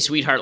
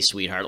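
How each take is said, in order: First: It is said in a plain, friendly tone. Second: It is said in a loaded, suggestive tone. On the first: The word is just a nice, friendly address. The speaker calls it right. "just to say sweetheart. Like you're just talking to a person" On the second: The word carries an added, loaded meaning. The speaker calls it wrong. "One's like, hey, sweetheart. Like to meaning"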